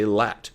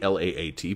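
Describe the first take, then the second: First: It is said as a single word. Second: It is spelled out letter by letter. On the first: This is how people usually say it. "People say L A T" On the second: This is not how people usually say it. "People don't say L A A T"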